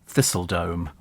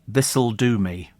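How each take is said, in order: First: It is run together as one word. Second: It is said as three separate words. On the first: The house name sounds like a dome of thistles. The speaker calls it wrong. "if you put it all the way down, it's Thistledome" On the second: The house name means it will do for me. The speaker calls it right. "It should read This'll Do Me"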